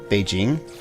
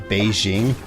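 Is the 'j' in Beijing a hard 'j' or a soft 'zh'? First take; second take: hard j; soft zh. First: The middle consonant is a hard j sound. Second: The middle consonant is a soft zh sound.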